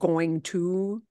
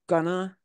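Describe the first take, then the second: First: Both words are said in full. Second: The words are swallowed into one reduced word. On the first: "instead of going to" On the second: "where we swallow up a bunch"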